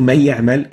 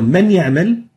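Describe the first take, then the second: First: The N merges into a doubled, stressed Y. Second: The N is pronounced clearly before the Y. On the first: "converting the noon into ya and joining the two yas" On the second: "a silent N, a noon sakina"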